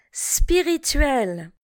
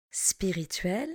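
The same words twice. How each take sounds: First: Spirituel said slowly and clearly; teacher models Spirituel slowly for learners; slow model word. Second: Spirituel repeated much softer and lower. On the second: Teacher echoes Spirituel quietly for the class. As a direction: softly echo Spirituel. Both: Shown as a demonstration. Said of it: "Répétez après moi".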